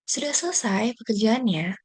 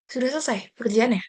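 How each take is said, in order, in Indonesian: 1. Nadanya lembut, hangat, dan penuh perhatian. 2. Nadanya ketus, tajam, dan tidak sabar. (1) "Tadi saya sampaikan dengan nada yang penuh perhatian, lembut" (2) "tadi saya sampaikan dengan nada ketus dan tidak sabar"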